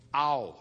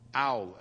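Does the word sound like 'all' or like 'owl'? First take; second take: owl; owl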